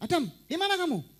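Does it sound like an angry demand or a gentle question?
angry demand. It sounds like a harsh, angry demand. The asker is angry at the listener. The speaker calls it wrong. "Nggak ngomong gini"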